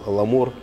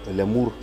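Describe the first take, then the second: First: The first L is hard, followed by a plain a. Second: The first L is soft, followed by a ya sound. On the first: The speaker calls it right. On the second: The speaker calls it wrong. "Кто-то читает лямур, но лямур это совсем другое"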